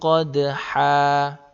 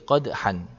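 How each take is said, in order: First: The word ends in a long vowel. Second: The word ends in an n sound. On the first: The speaker calls it right. "Kalau dibaca waqaf seperti ini, maka cara bacanya" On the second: The speaker calls it wrong. "Tidak boleh"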